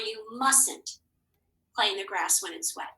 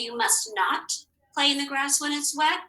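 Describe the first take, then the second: First: Mustn't is contracted, with its first T silent. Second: Must not is said as two full words. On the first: "Do you hear this T? No, you don't" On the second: "So I can say"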